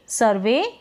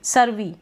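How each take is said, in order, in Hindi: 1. शब्द का अंत 'ay' स्वर से होता है। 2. शब्द का अंत 'ee' स्वर से होता है।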